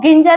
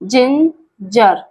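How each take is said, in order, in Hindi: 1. यह शब्द कठोर g ध्वनि से शुरू होता है। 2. यह शब्द नरम j ध्वनि से शुरू होता है। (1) "इसको गिंजर नहीं बोलेंगे" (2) "देखिए जिंजर"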